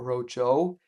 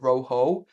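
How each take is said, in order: First: The middle consonant is a 'j' sound. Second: The middle consonant is an 'h' sound. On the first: The speaker calls it wrong. "and not rojo" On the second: The speaker calls it right. "it's roho"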